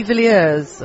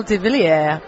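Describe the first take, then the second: First: "Villiers" said English-style with a final z; alternative pronunciation. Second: "de Villiers" said French-style, without a final z; tentative pronunciation. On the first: Host offering another guess at the surname, "Villiers" English-style. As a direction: end "Villiers" on an audible z sound. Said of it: "'cause I'm probably not saying it right". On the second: Host guessing at guest's surname, "de Villiers" tentatively French-style. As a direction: try "Villiers" with a French-sounding ending. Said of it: "I'm probably not saying it right". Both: Shown as a demonstration.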